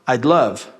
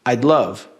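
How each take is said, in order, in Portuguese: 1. As duas primeiras palavras são contraídas em uma só. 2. As duas primeiras palavras são contraídas em uma só.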